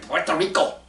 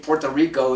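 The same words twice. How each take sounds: First: It is said in a Spanish accent. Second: It is said in a plain American accent.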